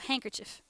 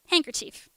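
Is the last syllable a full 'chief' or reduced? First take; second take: reduced; full chief. First: The last syllable has a short, reduced vowel. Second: The last syllable has a full 'chief' vowel. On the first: "American pronunciation is handkerchief, like with like a it's somewhere between an it and an uh sound" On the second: "I say handkerchief, right? I go chief"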